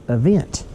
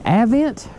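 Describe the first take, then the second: First: Avent with a weak first vowel, uh-VENT; alternative pronunciation. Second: Avent with a short A as in "cat", AV-ent; pronunciation query. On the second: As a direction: say Avent starting "AV", rising in question. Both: Shown as a demonstration. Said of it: "Is it Avent or Avent?".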